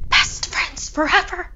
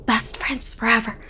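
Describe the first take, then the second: First: Eerie high ghost voice. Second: Hushed blank whisper. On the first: Acted. Final eerie repetition. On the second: A narrator's reading. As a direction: whisper it in a daze. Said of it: "she whispered over and over".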